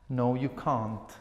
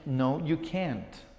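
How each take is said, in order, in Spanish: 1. Se dice con acento británico. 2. Se dice con acento americano. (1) "Pero en inglés británico sería" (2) "en inglés americano yo voy a decir"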